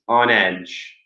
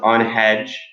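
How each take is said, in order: First: The word begins directly with a vowel. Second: The word begins with an h sound. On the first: The speaker calls it right. "It's on edge" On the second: The speaker calls it wrong. "There's no ha. It's not on hedge"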